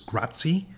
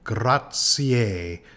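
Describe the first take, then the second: First: The word is said without the final extra syllable. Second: The word is said with an extra final syllable. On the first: The speaker calls it wrong. "many people uh, who don't know much about Italian will pronounce this" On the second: The speaker calls it right. "it in fact has a, an extra syllable"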